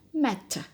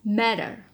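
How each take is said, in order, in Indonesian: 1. Huruf t di tengah adalah bunyi t yang jelas. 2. Huruf t di tengah adalah kibasan lembut yang cepat. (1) "Dalam British ini akan dibaca matter" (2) "But in Americans, this t is intervocalic and it's going to be flat"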